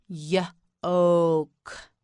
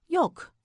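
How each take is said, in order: First: Yolk split into "yuh" and a long "oke"; sounded out. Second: Said in the usual way. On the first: Shown as a demonstration. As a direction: break Yolk after the first sound. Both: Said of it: "You say it, say yolk".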